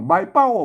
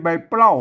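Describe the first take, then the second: First: The second word begins with a plain p sound. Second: The second word begins with a pl cluster. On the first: The speaker calls it right. "ใบเป้าไม่ใช่ใบเปล้า" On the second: The speaker calls it wrong. "ไม่ใช่ใบเปล้า"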